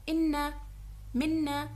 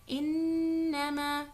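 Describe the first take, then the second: First: ان and منا broken apart, no nasal hold; the mistaken, unnasalized way; wrong split reading. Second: انما with the نّ held long through the nose; the right tajweed way, drawn out; correct nasalized ghunna. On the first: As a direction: chop انما into ان then منا. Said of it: "تو میں غلط پڑھ رہی ہوں". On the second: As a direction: stretch the nasal in انما slowly. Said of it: "اب صحیح ہے". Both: Shown as a demonstration.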